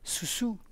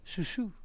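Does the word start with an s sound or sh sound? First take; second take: s; s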